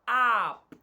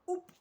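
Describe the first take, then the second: First: The vowel is a short open uh sound. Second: The vowel is a long rounded oo sound. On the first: The speaker calls it right. "but it will say up" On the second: The speaker calls it wrong. "it will not say oop"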